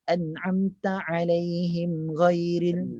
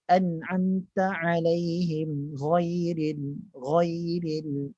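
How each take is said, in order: First: Slow recitation with GHAIRIL not fully raised; insufficient raising. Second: Slow recitation ending in a dark GHAIRIL, like 'ghoiril'; correct raised articulation. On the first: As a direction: chant it, ghairil still too thin. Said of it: "Tak boleh". (bacaan dengan ghairil tidak cukup tebal) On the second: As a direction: chant it and lift the tongue root on ghairil. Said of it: "Ha, tu". (bacaan dengan ghairil tebal) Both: Shown as a demonstration.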